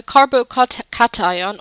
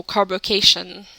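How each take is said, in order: First: "cation" said as KAT-eye-on; cat-ion pronunciation. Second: "carbocation" said as carbo-KAY-shun; cay-shun pronunciation. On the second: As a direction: rhyme the end of "carbocation" with nation. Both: Shown as a demonstration. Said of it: "depending which way you want to pronounce it".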